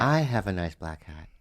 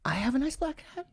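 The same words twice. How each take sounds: First: Low, soft statement settling through "hat"; stated repetition. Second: Much higher, soft question rising on "hat"; questioning repetition. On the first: Partner repeating the line back, "hat" stated low. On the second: Partner volleying the line back, "hat" questioning. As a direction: push "hat" up high as a question. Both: Shown as a demonstration.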